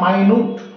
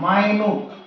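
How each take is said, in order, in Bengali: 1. প্রথম স্বরধ্বনিটি 'eye'-এর মতো শোনায়, শেষ হয় 'newt' দিয়ে। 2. প্রথম স্বরধ্বনিটি 'eye'-এর মতো শোনায়, শেষ হয় 'newt' দিয়ে।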